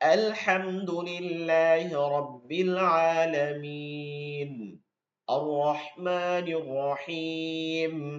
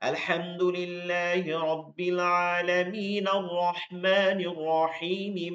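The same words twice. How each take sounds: First: Each verse stops, with the vowel held long. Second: The verses run on with a short vowel. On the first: "এই যে শেষে থামতেছেন" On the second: "মিলাই পড়ার সময় এক আলিফ টেনে টেনে পড়তেছি"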